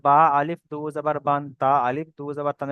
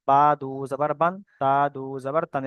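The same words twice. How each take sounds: First: "আলিফ" wrongly spoken after both বা and তা; wrongly voiced alif. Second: Said in the usual way. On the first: Shown as a demonstration. Teacher warning students off this spelling, alif voiced. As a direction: spell out "আলিফ" before each দু জাবার. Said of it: "এরকম বলবো না". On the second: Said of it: "এরকম বলবো".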